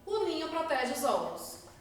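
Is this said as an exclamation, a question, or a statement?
statement. It is said as a flat, falling statement. It asserts a fact. "Afirmei, ponto final"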